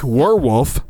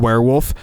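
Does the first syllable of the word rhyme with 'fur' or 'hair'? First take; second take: fur; hair. First: The first syllable sounds like the verb 'were'. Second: The first syllable is said the usual way. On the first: It used to be a wolf. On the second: A creature that is part human, part wolf.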